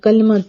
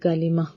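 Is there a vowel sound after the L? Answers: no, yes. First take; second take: no; yes. First: No vowel is heard after the L sound. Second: A short i vowel follows the L sound. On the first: The speaker calls it wrong. "हम लोग कहते हैं ... ऐसे नहीं" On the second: The speaker calls it right. "लाम के नीचे जेर होती है"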